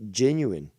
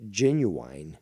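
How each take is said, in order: First: Genuine said as jen-yoo-wine; Ontario genuine. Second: Genuine as jen-yoo-in, corrected. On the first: Demoing the Ontario genuine to a caller. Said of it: "yeah, genuine". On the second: Correcting his own genuine on the call. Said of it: "or, sorry". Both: Shown as a demonstration.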